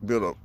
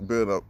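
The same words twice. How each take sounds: The two takes are said the same way.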